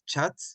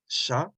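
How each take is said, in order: First: It begins with a 'ch' sound. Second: It begins with an 'sh' sound. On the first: The speaker calls it wrong. "if you re read it in English, but they know it's not chat" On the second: The speaker calls it right. "it's sha"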